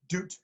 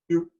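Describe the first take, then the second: First: The final T is released with a puff of air. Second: The final T stops the sound without air. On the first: The speaker calls it wrong. "don't aspirate the T. It's not doot" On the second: The speaker calls it right. "use the T to stop the sound, but just kind of swallow it"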